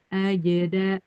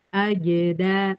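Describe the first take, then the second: No difference in how they are said.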